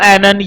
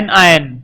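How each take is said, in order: First: The word is said joined as one word. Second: The word is split into two separate parts. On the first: The speaker calls it right. "या तो इसको बोलो एनन" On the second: The speaker calls it wrong. "ये word अलग बोलते हैं, वैसे अलग अलग बोलना गलत है"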